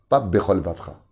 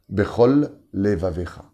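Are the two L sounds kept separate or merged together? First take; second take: merged; separate. First: The two L sounds merge into one. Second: The two L sounds are clearly separated. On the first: The speaker calls it wrong. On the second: The speaker calls it right. "je fais attention de bien les séparer"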